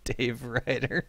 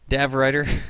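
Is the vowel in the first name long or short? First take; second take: long; short. First: The first name has a long A vowel. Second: The first name has a short A vowel. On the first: The speaker calls it wrong. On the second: The speaker calls it right.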